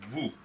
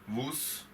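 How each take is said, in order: First: The final s is left silent. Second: The final s is pronounced aloud. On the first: The speaker calls it right. "I'm reading it as" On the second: The speaker calls it wrong. "I'm not reading it as"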